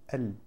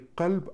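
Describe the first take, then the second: First: The word starts with a glottal stop. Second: The word starts with a k sound. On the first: This is the Syrian and Egyptian form. "как мягко прямо звучит" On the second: This is the standard form. "Не кальб"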